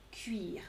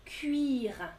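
First: "Cuire" breathed as a soft whisper. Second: Said in the usual way. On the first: Shown as a demonstration. Teacher whispers the verb to her class. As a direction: whisper the word "Cuire" back to them. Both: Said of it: "vous vous souvenez le verbe".

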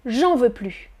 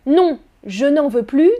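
First: "j'en veux plus" with no "ne"; dropped ne. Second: "je n'en veux plus" with "ne" said clearly; full ne. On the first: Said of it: "On coupe le ne". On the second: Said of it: "on supprime le ne". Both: Shown as a demonstration. Teacher contrasts full and dropped ne.

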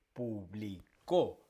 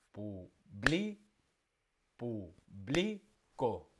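First: Slow pu-bli-CÓ for publicó, final syllable punched; stress on last syllable. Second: Very slow pu-BLI-co for publico, middle syllable punched; stress on second-to-last syllable. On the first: Teacher showing force on the last syllable, publicó ending on CÓ. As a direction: drive the force onto the -có of publicó. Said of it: "la fuerza va en la última". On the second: Teacher showing force on the penultimate, publico with stressed BLI. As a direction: push -bli- in publico, let -co fall. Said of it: "la lleva en la penúltima". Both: Shown as a demonstration.

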